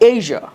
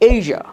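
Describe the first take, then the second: Both takes have the same delivery.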